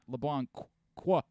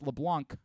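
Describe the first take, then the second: First: The name ends with an extra 'qua' syllable. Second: The name ends without any extra syllable. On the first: The speaker calls it wrong. "It's not LeBlanc qua" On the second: The speaker calls it right. "It's LeBlanc"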